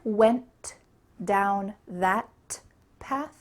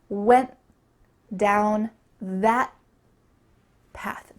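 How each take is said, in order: First: The T sounds are released with a puff of air. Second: The T sounds are stopped without a puff of air. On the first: The speaker calls it wrong. "Do you hear went down that path? No" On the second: The speaker calls it right. "I'm not letting that puff of air come through"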